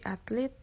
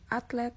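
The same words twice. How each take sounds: First: "atlet" said as "atlit"; "atlet" ending in -lit; non-standard pronunciation. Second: Said in the usual way. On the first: Shown as a demonstration. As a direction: say "atlet" with an I in the last syllable. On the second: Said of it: "contoh kata baku dan kata".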